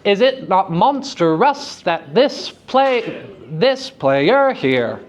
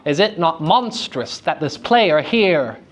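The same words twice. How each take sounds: First: Slow, overdone ham reading with "monstrous" in three syllables; bad actor voice. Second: Said in the usual way. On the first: Shown as a demonstration. Teacher mocking the unelided meter in a bad actor voice. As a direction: ham it up like a bad actor, dragging each word. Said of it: "we're gonna put on our bad actor voice". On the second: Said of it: "that sounds way better".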